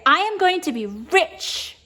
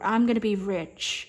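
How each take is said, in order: First: It is said with strong, amplified feeling. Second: It is said plainly, without much feeling. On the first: The speaker calls it right. "like amplifying the emotion" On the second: The speaker calls it wrong. "instead of saying"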